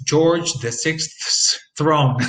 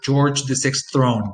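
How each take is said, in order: First: "George the sixth's throne" said very slowly, every cluster sounded; slow careful demo. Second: "sixth throne" with the s sound dropped; simplified demo. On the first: Teacher showing the hard careful version to students, very slow. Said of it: "That's almost impossible to say". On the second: Teacher showing the easier simplified version to students, relaxed. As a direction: say "sixth throne" without the extra s. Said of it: "end up with". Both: Shown as a demonstration.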